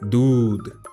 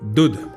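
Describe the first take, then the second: First: The u vowel is long. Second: The u vowel is short. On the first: The speaker calls it right. "ऊ को थोड़ा लंबा बोलना पड़ा" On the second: The speaker calls it wrong. "दूध नहीं नहीं"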